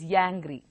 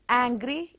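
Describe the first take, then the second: First: The word begins with a y sound. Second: The word begins with a plain vowel. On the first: The speaker calls it wrong. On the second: The speaker calls it right.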